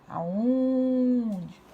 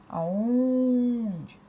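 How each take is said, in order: The two takes are said the same way.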